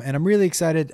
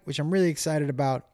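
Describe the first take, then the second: First: "really excited" said louder with more energy. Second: Said in the usual way. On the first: Real, not acted. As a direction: repeat it, punching "really" harder.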